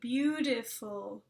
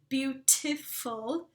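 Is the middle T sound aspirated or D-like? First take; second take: D-like; aspirated. First: The middle T sounds almost like a D. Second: The middle T is a crisp, aspirated T. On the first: This is the American way of saying it. The speaker calls it right. "with almost a D sound, like we would say it in our American English" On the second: This is the British way of saying it. The speaker calls it wrong. "beaut with an aspirate T"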